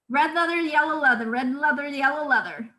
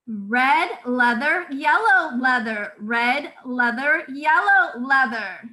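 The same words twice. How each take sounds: First: It is said quickly. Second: It is said slowly and clearly.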